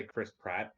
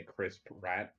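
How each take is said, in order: First: Said in the usual way. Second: "Pratt" drawn out slowly as "P'rat", like rat; slow down and split "Pratt" so "rat" stands out; altered name. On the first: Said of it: "I don't say Chris Pratt". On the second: Shown as a demonstration. Telling friends the actor's nickname, "Pratt" said slowly as "rat". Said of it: "I say Chris Pratt".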